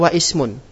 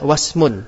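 First: The 'i' before 'smun' is pronounced separately. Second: The 'i' is dropped, linking straight into 'smun'. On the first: The speaker calls it wrong. "Enggak boleh kita baca wa ismun" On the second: The speaker calls it right. "Namun kita baca wasmun"

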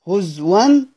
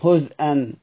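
First: The hamza is replaced by a w sound. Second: The hamza is kept as a glottal stop. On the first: The reader stops on the word. "في الوقف هز ون بالإبدال" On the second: The word is joined to what follows. "في الوصل بيقرأ عادي زي خلف العاشر"

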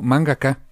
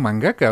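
First: The word is said with an English pronunciation. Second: The word is said with a Spanish pronunciation. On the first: This is how English speakers say it. "Curiosamente ellos lo pronuncian raro, lo pronuncian como mangaka" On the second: This is how the speaker has always said it. "Yo siempre lo he pronunciado mangaka"

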